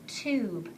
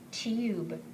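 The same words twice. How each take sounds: First: The vowel is a plain 'oo' sound. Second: The vowel is a 'yoo' sound. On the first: The speaker calls it right. "So now let's try the oo sound" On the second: The speaker calls it wrong. "Let's try the U name. ... That doesn't sound right"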